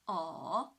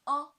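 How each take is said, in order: First: The pitch dips low, then rises. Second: The pitch stays high and level. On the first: "the third tone, from two to one to four" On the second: "The first tone"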